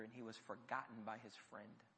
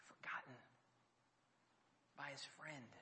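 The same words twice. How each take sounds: First: Said in the usual way. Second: Whisper. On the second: Acted. Repeated for effect.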